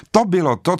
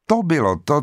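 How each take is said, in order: First: „To bylo to“ výš a hlasitěji, slovo „to“ udeřit; stupňuj napětí, teď naplno; silnější důraz na to. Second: První „To bylo to“ se stoupající melodií; naznač odhalení, ještě zdrženlivě; důraz na to. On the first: (vypravěč vrcholí odhalení, silný důraz) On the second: (vypravěč stupňuje hrůzu, mírný důraz) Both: A narrator's reading. Narrator builds horror reveal.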